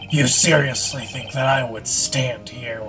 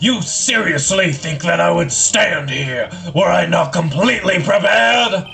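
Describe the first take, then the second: First: It is said at a softer volume. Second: It is said at a louder volume.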